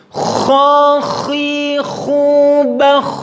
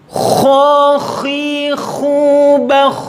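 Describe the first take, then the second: The two takes are said the same way.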